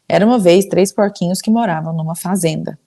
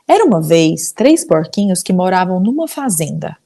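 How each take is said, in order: First: It is read flatly, without much voice variation. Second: It is read with lively, varied voice inflections.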